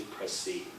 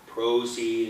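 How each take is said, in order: First: "proceed" with a reduced first vowel: pruh-CEED; lazier "proceed". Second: "proceed" with a full oh: proh-CEED; Canadian "proceed". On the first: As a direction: slacken the start of "proceed". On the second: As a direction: give "proceed" its full first vowel. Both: Shown as a demonstration. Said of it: "Everything is made a little lazier".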